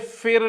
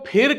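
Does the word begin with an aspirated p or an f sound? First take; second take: f; aspirated p. First: It begins with an f sound. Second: It begins with an aspirated p sound. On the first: The speaker calls it wrong. "फिर ना कहिए" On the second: The speaker calls it right. "फिर को फिर कहिए"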